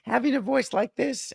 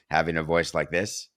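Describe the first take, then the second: First: The voice is high and childlike. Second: The voice is low and deep. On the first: This is how the voice sounded before puberty. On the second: This is how the voice sounded after puberty.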